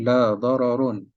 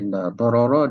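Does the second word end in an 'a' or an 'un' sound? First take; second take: un; a. First: The second word ends with an 'un' sound. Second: The second word ends with a short 'a' sound. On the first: It only has the plain sense of no harm, not all harm. The speaker calls it wrong. "Kalau baca dengan baris lain tak jadi. Contoh saya sebut la dararun" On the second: It covers every kind of harm. The speaker calls it right. "kalau dibaca la darara"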